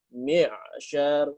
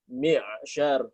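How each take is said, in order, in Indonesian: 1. Aliran udara berhenti tiba-tiba. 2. Aliran udara berhenti tiba-tiba.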